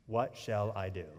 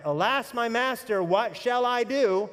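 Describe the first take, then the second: First: Soft, low, inward "What shall I do?"; hushed, personal "What shall I do?"; quiet despair. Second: Louder, higher, slow "what shall I do?" as a cry for help; pleading cry, higher and louder, drawn out. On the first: Shown as a demonstration. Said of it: "haven't you been there". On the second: Retold or imitated. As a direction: cry out "Alas, my master, what shall I do?" in alarm, slowly. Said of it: "all you could do is cry out".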